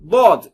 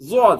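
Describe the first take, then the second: First: The first consonant sounds like a plain d. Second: The first consonant sounds like a z sound. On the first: "தால் மீது சொன்னீங்கன்னா முன்னாடி அழுத்திடுவீங்க" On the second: "ஜாவெல்லாம் கலந்தீங்கன்னா"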